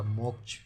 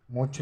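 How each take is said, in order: First: मोक्ष with k before the sh; correct pronunciation. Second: मोक्ष said moch, no k; wrong pronunciation. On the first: Teacher corrects the last letter, मोक्ष as moksh. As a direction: sound the full cluster ending मोक्ष. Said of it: "छतरी वाला छा". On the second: Teacher rejects the misspelling, मोक्ष as moch. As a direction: drop the k from मोक्ष. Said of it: "मोक्ष नहीं है". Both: Shown as a demonstration.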